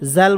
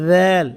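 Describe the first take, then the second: First: It begins with a 'j' sound. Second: It begins with a soft 'dh' sound. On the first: The speaker calls it wrong. "জাল বলা যাবে না" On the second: The speaker calls it right. "নোক্তা থাকলে হয়ে যাবে দ্যাল"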